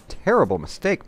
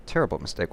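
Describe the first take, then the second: First: Terrible rising high and loud, mock outrage; high exclaim. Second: Said in the usual way. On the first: Player jeers at opponent's blunder, rising high exclaim.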